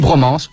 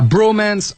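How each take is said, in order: First: It is said with a French accent. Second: It is said with an English accent. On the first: "avec l'accent français, c'est d'un coup beaucoup moins sexy" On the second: "ce que les Américains ont très justement appelé la"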